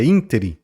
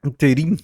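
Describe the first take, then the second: First: Ínterim stressed on the first syllable, ÍN-te-rim; ínterim the right way, ÍN-te-rim; correct stress. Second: Interim stressed on the middle syllable, in-TE-rim; wrong stress. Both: Shown as a demonstration. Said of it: "Não é interim, é ínterim".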